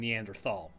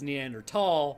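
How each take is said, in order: First: The 'thal' begins with a th sound. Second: The 'thal' begins with a plain t sound. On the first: "nobody's going to fault you for saying Neanderthal" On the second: "as a T sound, not a th sound. So it actually is Neanderthal"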